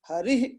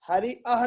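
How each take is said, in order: First: A light breath ends the word. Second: A full separate 'ah' follows the word. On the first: The speaker calls it right. "इस प्रकार का pronounce करना है" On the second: The speaker calls it wrong. "हरि अह नहीं बोलना है"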